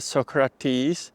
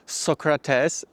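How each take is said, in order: First: The name has an English pronunciation. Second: The name has a non-English pronunciation. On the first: This is how English speakers say it. "maybe more uh, English version" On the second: This is how it is said in the speaker's own language. "how we would pronounce it in our native language"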